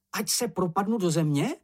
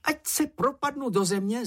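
First: High voice, rising at the end; questioning Čenich. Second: Very high-pitched, excitable babble; jabbered oath. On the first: Acted. Čenich asks how big the secret is, high questioning voice. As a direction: ask the oath as a question. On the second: A narrator's reading. Čenich swears to keep the secret, high jabbering voice. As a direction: gabble a solemn oath in a small high voice. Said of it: "zabrebentil Čenich".

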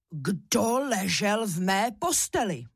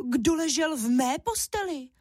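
First: Strong father bear voice, slow and drawn out; storybook big bear, mildly roaring; Ivan. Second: Cross mother bear, high-pitched; indignant storybook she-bear; Máša. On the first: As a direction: demand it slowly as papa bear. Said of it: "zařval medvědí tatínek Ivan silným medvědím hlasem". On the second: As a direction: scold in a higher mama bear voice. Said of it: "zlobila se Máša hlasem medvědí maminky". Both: A narrator's reading.

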